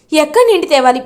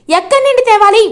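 First: Said in the usual way. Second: Higher, louder desperate repeat; desperate cry. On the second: A narrator's reading. Chamanthi begs her sister, louder desperate repeat. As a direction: cry out the question in despair.

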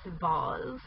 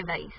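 First: "vase" said "vahz". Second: "vase" said "vayce", rhymes with face. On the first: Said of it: "I think it's pronounced vase". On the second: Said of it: "but I say vase". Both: Shown as a demonstration.

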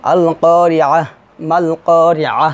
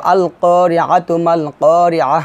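First: Drawn-out vowels, each করিয়াহ closed separately with h; paused recitation. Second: Slow recitation, করিয়াতু runs into মাল with a sounded "tu"; joined recitation. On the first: Teacher breaking the verses apart, paused recitation. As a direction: stop after each করিয়াহ on a soundless-vowel "h", then pause. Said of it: "যদি আপনি ভেঙে পড়েন". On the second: Teacher reading two verses together, joined recitation. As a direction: stretch the long vowels, join করিয়াতু to মাল, end করিয়াহ on h. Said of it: "আমি দুটি আয়াত মিলাই পড়ছি". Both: Shown as a demonstration.

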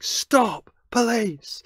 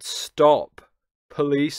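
First: High, loud shouted command; full-voiced yell, pitched way up; re-enacted shout. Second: Loud call, only slightly raised in pitch; a restrained re-enactment of a shout; retold shout. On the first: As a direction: shout it out high and forcefully, as if down a street. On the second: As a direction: call it out loudly but keep it contained. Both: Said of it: "I shouted".

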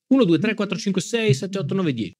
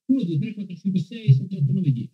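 First: High, sing-song mic check; mic test count. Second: High, quick mic check recount; mic test count again. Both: Shown as a demonstration. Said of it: "test del microfono".

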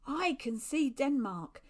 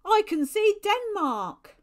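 First: Raised, slow call, not a full shout; drawn-out, moderately loud sighting call; milder excited call. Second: High, very loud, drawn-out call; slow, ringing lookout's cry; excited shout. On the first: Same call repeated after a break. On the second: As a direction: shout the sighting across the water. Lookout pointing, calling out land sighted. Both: A narrator's reading.

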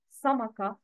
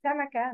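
First: سمكة with a dark s and rounded vowels; wrong heavy sin. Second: سمكة with thin s and light vowels, samaka; light sin. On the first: Teacher shows learners the mistake, wrongly heavy s. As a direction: thicken the s of سمكة into a sad. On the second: Teacher models the word for learners, light sin. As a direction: keep سمكة light from the first s. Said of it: "Words with سين". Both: Shown as a demonstration.

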